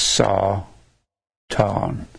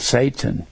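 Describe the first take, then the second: First: The first vowel sounds like the one in 'saw'. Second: The first vowel sounds like the one in 'say'. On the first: The speaker calls it right. "but it's pronounced Satan" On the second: The speaker calls it wrong. "It's actually spelled Satan"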